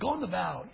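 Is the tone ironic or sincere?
ironic. It sounds ironic and mocking. The speaker means the opposite of the promise. "the exact same words, but the tone of voice had to be different"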